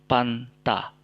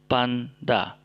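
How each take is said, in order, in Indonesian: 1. Konsonan tengah adalah bunyi t. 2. Konsonan tengah adalah bunyi d. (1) "Bukan panta" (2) "tapi panda"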